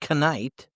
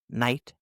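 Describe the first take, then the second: First: A K sound is heard before the N. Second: No K sound is heard before the N. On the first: The speaker calls it wrong. "if you say the K in night and you say knight" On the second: The speaker calls it right. "K is silent before N"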